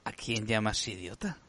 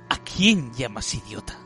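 First: It is said in a seductive, flirtatious voice. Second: It is said in a brave, heroic voice. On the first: The speaker is trying to seduce. "Ahora seduce" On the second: The speaker is the good guy. "léelo eso con voz de bueno"

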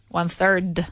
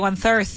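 First: The word ends with a soft D or T sound. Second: The word ends without a soft D or T sound. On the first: The speaker calls it right. "It finishes with a D, so that I want either a soft D sound or a T sound" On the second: The speaker calls it wrong. "There are people out there who say one third"

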